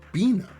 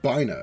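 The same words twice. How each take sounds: First: The first syllable does not sound like 'binary'. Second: The first syllable sounds like the start of 'binary'. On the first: "Bina is how it's pronounced, voiced in Ruina" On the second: "it looks like the beginning of the word binary"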